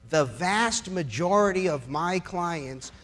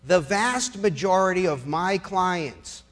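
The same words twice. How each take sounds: The two takes are said the same way.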